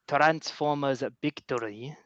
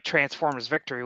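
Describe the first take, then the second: First: Victory is said the Japanese way, without V. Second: Victory is said with an English V sound.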